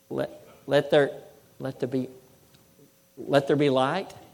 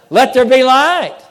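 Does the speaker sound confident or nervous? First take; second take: nervous; confident. First: It is said hesitantly, with nervous uncertainty. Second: It is said firmly, with calm certainty. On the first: The speaker doubts it will work. The speaker calls it wrong. "Do you think that God was really nervous about, I really hope this works?" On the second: The speaker knows it will happen. The speaker calls it right. "He knew it would happen"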